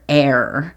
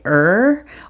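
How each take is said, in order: First: The word sounds like 'air'. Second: The word sounds like 'er'. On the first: "it er or air" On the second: "it er or air"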